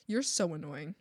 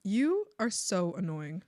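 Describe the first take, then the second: First: Said in the usual way. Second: "You" drawn out, each word set apart; slow emphatic. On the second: Retold or imitated. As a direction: stretch "You" and deliver the rest deliberately. Repeated slowly for emphasis.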